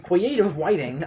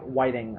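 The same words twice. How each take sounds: First: Creative writing said as "whiting"; slow lisp on "creative whiting". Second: Writing said as "whiting"; lisped writing. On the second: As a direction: lisp the r in "whiting". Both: Real, not acted. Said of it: "my lisp is coming out".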